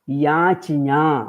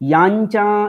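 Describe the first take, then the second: First: The c sound comes before the ñ sound. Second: The ñ sound comes before the c sound. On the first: The speaker calls it right. "चकारः आदौ, ञकारः अनन्तरम्" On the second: The speaker calls it wrong. "याञ्चा इति प्रयोगः असाधुः"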